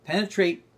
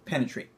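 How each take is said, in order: First: "Penetrate" driven higher and forward; penetrating Penetrate. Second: Said in the usual way. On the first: Shown as a demonstration. Teacher demos the penetrate gesture in voice. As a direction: push "Penetrate" out hard and high. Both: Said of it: "let's do penetrate".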